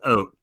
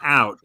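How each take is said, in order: First: The vowel sounds closer to oh or oo. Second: The vowel sounds like the one in cow. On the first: "she says oat" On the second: "instead of saying out"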